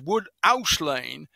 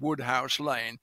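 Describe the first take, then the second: First: The h in house is dropped. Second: The h in house is clearly pronounced.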